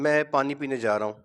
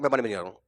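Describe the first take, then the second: First: The sentence is spoken clearly and evenly. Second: The sentence is rushed and hard to make out.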